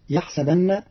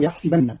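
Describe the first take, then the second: First: Said in the usual way. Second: "يحسبن" as yahsibanna, i after the s; short i on the seen of "يحسبن"; kasra on the seen. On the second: Shown as a demonstration. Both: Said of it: "بكسر السين".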